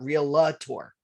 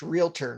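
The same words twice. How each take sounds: First: An extra vowel sound between the L and T. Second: No vowel sound between the L and T. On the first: The speaker calls it wrong. "stick an A in between the L and the T" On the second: The speaker calls it right. "it's pronounced realtor"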